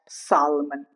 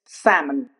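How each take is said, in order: First: The L in the word is pronounced. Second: The L in the word is silent. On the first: The speaker calls it wrong. "not salmon" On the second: The speaker calls it right. "It's salmon"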